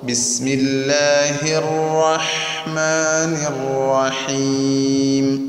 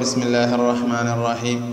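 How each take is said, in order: First: The h sound is clear, light and breathy. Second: The h sound is weak, without clear breath. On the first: The speaker calls it right. "സ്ഫുടമായി ഉച്ചരിക്കണം" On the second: The speaker calls it wrong. "ഈ ഹാഇന് യാതൊരു ഭംഗിയുമില്ല"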